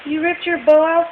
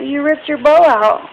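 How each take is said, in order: First: High, louder rising question on bow; You ripped your bow out? with bow rising high. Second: High, loud statement falling on bow; You ripped your bow out. with bow loud and falling; mock scolding. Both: Real, not acted. Mother talking to her toddler.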